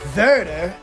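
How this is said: The name is said with a German pronunciation.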